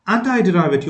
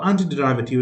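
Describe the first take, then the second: First: "antiderivative" with anti rhyming with tie. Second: "antiderivative" with a light ee sound in anti; "anti" as an-tee. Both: Shown as a demonstration. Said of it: "It is also pronounced as".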